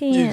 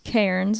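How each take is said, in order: First: The word is said the Australian way. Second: The word is said the non-Australian way. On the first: "but in in Australia it's" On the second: "It's it's Cairns"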